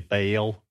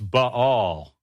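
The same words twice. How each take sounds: First: The name is said as one syllable. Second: The name has two syllables with a brief break. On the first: The speaker calls it wrong. "in Southern Baptist churches, we say Baal" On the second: The speaker calls it right. "It's a diphthong. It's Ba, and there's a little silence there"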